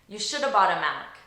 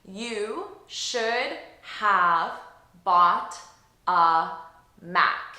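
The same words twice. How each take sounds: First: It is spoken quickly with reduced, linked words. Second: It is spoken very slowly with each word separate. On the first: "say an expression in natural spoken English three times" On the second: "here's what I said very slowly"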